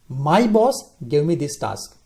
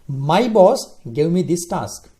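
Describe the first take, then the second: First: The stress is on "boss". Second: The same.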